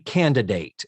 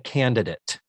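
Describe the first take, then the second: First: The last syllable has a long A vowel. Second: The last syllable has a short, reduced vowel. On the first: The speaker calls it right. "Shouldn't it have a long A?" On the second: The speaker calls it wrong. "I have consistently referred to that episode as"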